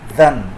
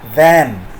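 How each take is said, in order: First: The word has a weak, reduced vowel. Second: The word has a full, strong vowel.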